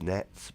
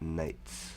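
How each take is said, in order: First: The vowel sounds like the one in 'bet'. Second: The vowel sounds like the one in 'bait'. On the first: This is what many other people call them. "a lot of people would refer to them as nets" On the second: This is what the speaker has always called them. "I've always called them nates"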